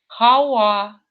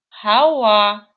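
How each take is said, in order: No difference in how they are said.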